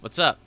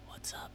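First: It is said in a normal voice. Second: It is said in a soft whisper.

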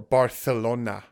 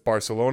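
First: It is said with a local Spanish pronunciation. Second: It is said with a plain English pronunciation. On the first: This is how people from there say it. "as some people might say" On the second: This is how an outsider says it. "Not me, it's Barcelona because I'm not from there"

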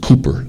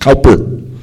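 First: The first vowel sounds like 'oo'. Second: The first vowel sounds like 'ow'. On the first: The speaker calls it right. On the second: The speaker calls it wrong.

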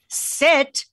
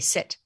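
First: It is said louder and more forcefully. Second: It is said at a normal volume.

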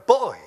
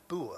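First: It is said with a British pronunciation. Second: It is said with an American pronunciation. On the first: "We in English, call it a buoy" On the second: "You in American English have a thing in the sea that you called a buoy"

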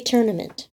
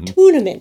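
First: The first syllable does not sound like tuna. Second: The first syllable sounds like tuna. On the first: This is how most people say it. "I say tournament, as most do" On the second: This is one person's unusual way of saying it. "like tuna fish"

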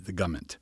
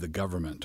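First: The word is squeezed into two short syllables. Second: The word is said with all its syllables.

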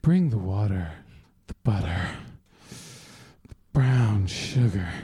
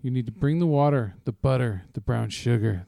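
First: It is read in a put-on sexy voice. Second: It is read in a plain reading voice.

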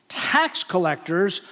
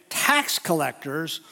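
No difference in how they are said.

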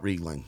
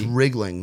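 First: The first syllable does not sound like rig. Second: The first syllable sounds like rig. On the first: The speaker calls it wrong. "not Riegling" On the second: The speaker calls it right. "So it's Riegling"

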